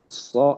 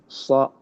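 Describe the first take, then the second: Both takes have the same delivery.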